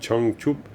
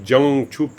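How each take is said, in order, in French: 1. Il commence par un son « ch » plus dur. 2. Il commence par un son « j » doux, à la française. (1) "Non, c'est Changchup" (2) "Dans la phonétique française, c'est terrifiant"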